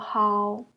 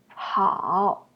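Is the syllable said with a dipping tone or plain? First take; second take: plain; dipping. First: The syllable is said without the dipping tone. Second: The syllable is said with a dipping tone.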